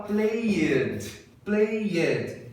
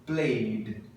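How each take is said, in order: First: PLAYED stretched into two syllables, play-ED; slow, wrong "played" as play-ed; mispronounced extra syllable. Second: PLAYED as one syllable, "playd"; "played" with no extra vowel before the d; correct pronunciation. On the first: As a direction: sound the -ed of "played" separately. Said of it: "duas sílabas". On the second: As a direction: end "played" straight on a d. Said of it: "A pronúncia certa é". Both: Shown as a demonstration.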